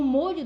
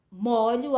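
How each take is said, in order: First: Molho with a closed O, like "mô-lho". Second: Molho with an open O, like "mó-lho". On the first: Teacher showing the noun's closed O to students, clearly. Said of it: "A pronúncia do O é fechado". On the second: Teacher showing the verb's open O to students, clearly. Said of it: "o som, ele é aberto". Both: Shown as a demonstration.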